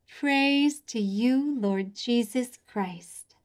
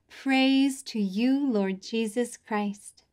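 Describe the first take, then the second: First: Slow, drawn-out response; slow repeated response. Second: Slow, drawn-out liturgical response; slow modelled response. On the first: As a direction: say it slowly together with them. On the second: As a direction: stretch each word for kids to copy. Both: Shown as a demonstration. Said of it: "Your turn".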